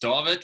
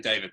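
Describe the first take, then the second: First: The name is given its Afrikaans pronunciation. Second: The name is given its English pronunciation. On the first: "which is Afrikaans" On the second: "when I speak to English people, I just say David"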